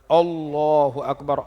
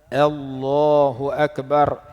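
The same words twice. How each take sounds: First: The opening a sound is thick and heavy. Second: The opening a sound is thin and light. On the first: The speaker calls it wrong. "Jangan kita baca" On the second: The speaker calls it right. "kita kena baca"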